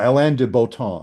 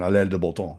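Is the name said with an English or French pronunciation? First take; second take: English; French. First: The name is said with English pronunciation. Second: The name is said with French pronunciation. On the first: "I'm not sure I'm saying it right" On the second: "if you say it with the French pronunciation"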